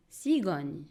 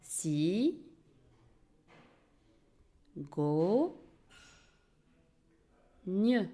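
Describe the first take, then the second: First: Said in the usual way. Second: "Si, go, gne" with a very long gap between syllables. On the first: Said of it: "Le mot cigogne". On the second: Shown as a demonstration. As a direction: draw out "Si", then "go", then "gne", each alone. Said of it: "se compose de trois syllabes". (« Si, go, gne » en trois syllabes bien séparées)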